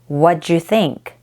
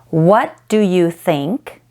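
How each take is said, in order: First: The word do is reduced almost to nothing. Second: Every word including do is pronounced fully.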